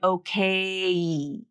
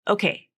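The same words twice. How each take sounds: First: The final vowel glides fully to its end. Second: Only the first part of the final vowel sounds. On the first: "I don't hear her say okay and I" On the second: "I kind of only hear the first part"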